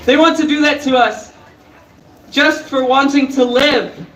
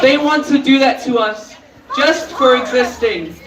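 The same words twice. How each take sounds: First: Said in the usual way. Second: Breathless, voice catching; losing breath mid-sentence; catching breath midword. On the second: Real, not acted. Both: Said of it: "Sorry, I lost my breath".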